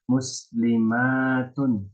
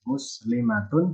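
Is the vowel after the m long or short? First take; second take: long; short. First: The vowel after the m is long. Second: The vowel after the m is short. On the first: It refers to many Muslim women. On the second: It refers to one Muslim woman.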